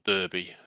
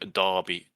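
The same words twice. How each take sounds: First: The name is said in an American way. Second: The name is said in a non-American way.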